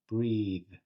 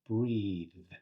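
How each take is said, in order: No difference in how they are said.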